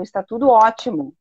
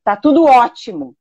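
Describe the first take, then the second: First: Said in the usual way. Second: "Tá tudo ótimo" said a bit louder, with a falling, sardonic tune on "tudo"; mock cheerful, meaning the opposite; ironic. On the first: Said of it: "as palavras disseram". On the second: Shown as a demonstration. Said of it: "falou com uma voz de ironia".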